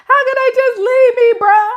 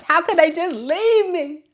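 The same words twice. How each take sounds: First: Much higher, louder mock wail, close to crying; whiny crying child. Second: Higher, whining mock complaint; whiny child. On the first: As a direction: wail it like a kid about to cry. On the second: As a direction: whimper the complaint like a sulking kid. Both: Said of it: "whining and complaining like a child".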